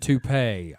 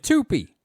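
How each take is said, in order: First: It is said the French way, like too-pay. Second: It is read out as spelled, like two P.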